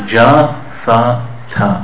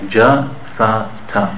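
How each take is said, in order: The two takes are said the same way.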